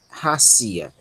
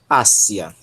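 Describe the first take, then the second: First: It begins with a strong breathy h sound. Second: It begins directly with the vowel, no h. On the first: The speaker calls it wrong. "Se aqui fosse uma vogal, uma aspiração forte, nós pronunciaríamos racia" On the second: The speaker calls it right. "Mas é uma aspiração branda, então pronunciamos apenas ácia"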